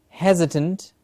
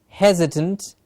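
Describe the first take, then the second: Both takes have the same delivery.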